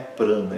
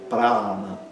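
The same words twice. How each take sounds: First: The first vowel is nasal and short. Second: The first vowel is open and long. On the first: The speaker calls it wrong. "Não é prana" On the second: The speaker calls it right. "O primeiro A é aberto e longo"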